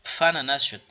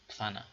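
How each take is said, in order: First: پفنه said as FANA without p; contrast, plain f. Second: پفنه said softly as FANA; quiet repeat of پفنه; soft model word. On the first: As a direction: point out no pf here. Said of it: "ف تلفظ شد، نه؟". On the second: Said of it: "ف تلفظ شد". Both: Shown as a demonstration.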